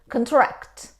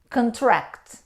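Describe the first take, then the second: First: The stress is on the second syllable. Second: The stress is on the second syllable.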